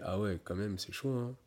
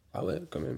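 First: Dejected reaction. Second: High, quiet, impressed "ah ouais"; amazed reaction. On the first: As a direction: sink into it, glum and beaten. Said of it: "tu fais". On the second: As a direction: breathe it out, wide-eyed and impressed. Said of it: "je fais". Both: Retold or imitated.

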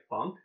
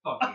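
First: Funk as one syllable, silent final E; unsure pronunciation. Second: "Funky" with the final E sounded as ee; two syllables, "Funky" ending in ee; alternative pronunciation. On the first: Real, not acted. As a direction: say "Funk" without an ending vowel. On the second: Shown as a demonstration. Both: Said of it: "I'm not sure how you pronounce that".

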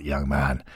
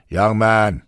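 First: Put-on soft Scottish "young man", dropped low; Scottish burr. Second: A lightly voiced brusque Mee; curt and stiff, talking down to a young man. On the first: Shankly softly calls Taylor young man, Scottish accent. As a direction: quietly add "young man" in a Scottish lilt. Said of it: "With his unmistakable Scottish burr". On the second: Mee brushes off Taylor's loan request, lightly brusque. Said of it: "said Mee brusquely". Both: A narrator's reading.

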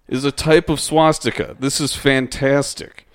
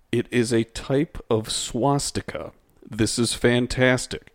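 First: Excited reading. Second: Said in the usual way. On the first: Shown as a demonstration. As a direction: read it as if thrilled by the discovery. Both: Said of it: "So those two sentences are right next to each other".

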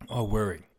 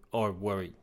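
First: Said in the usual way. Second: Hoarse voice giving out; voice cracking. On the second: Real, not acted. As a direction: voice breaks on the words. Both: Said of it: "I'm losing my voice".

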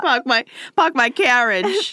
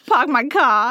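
First: Put-on higher hammy Boston accent, no r. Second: Put-on hammy Boston accent, no r. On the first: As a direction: drop every r, Boston style. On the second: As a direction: drop the r like Boston. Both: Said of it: "We're trying to emulate it".

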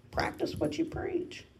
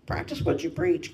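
First: Higher, softer teasing echo; a lighter playful repeat; plain words said back higher and soft. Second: Said in the usual way. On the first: Shown as a demonstration. Teacher gently echoing herself, softer and higher. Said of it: "Practice what you preach, [name]".

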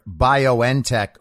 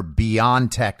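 First: BioNTech said "bio-en-tech", N as a letter; letters spelled out. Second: BioNTech said "bee-on-tech", slower; run-together variant. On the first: Commentator trying one way of saying the company name, BioNTech as bio-en-tech. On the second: Commentator offering another way of saying the company name, BioNTech as bee-on-tech. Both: Shown as a demonstration. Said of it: "or however you say it, people say it in so many different ways".

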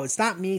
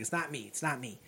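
First: Said in the usual way. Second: It's not me murmured softer and lower; quiet pleading. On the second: Retold or imitated. Student pleading with the principal, quiet and low. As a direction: sink into a soft plea on It's not me. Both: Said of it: "Thomas Sam's like".

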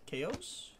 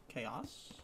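First: Chaos said as KAY-ohs, questioning; KAY-ohs pronunciation. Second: Chaos said as KAY-oss, lower and softer; KAY-oss pronunciation. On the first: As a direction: say Chaos with a long O, rising at the end. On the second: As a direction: say Chaos with a short, open O at the end. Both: Shown as a demonstration. Trying two readings of title.

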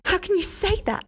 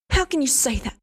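First: Much higher, repeat it rising to a shriek; shrieking outrage. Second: Outraged. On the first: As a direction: push the repeat higher in disbelief. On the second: Hester shocked and outraged. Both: Acted.

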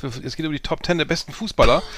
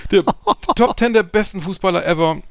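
First: Said in the usual way. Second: Higher, louder hyped re-announcement; excited announcement. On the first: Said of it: "repeated with emphasis". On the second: Shown as a demonstration. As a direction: announce it like a big show. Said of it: "repeated louder with a laugh".

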